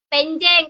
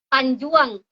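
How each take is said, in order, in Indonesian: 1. Kedua suku kata punya vokal e. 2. Suku kata terakhir punya vokal ua. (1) "anak saya tuh ngomongnya penjeng" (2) "Jadi kalau di Ranai ini apa ya?"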